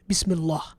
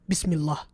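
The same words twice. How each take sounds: The two takes are said the same way.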